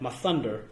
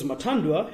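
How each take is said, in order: First: The middle consonant is a th sound. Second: The middle consonant is a plain t. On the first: The speaker calls it wrong. "they pronounce that Mathunder. Nope, incorrect" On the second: The speaker calls it right. "has a silent H"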